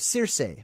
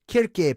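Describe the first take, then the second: First: The name begins with a soft S sound. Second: The name begins with a hard K sound. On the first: "I call it Circe" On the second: "pronounced Kirk"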